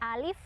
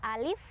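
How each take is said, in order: First: The vowel is held short, one beat. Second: The same.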